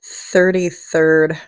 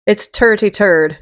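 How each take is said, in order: First: Said in the usual way. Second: "turty turd" with a hard T and no TH; mocking Irish accent. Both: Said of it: "they can't say".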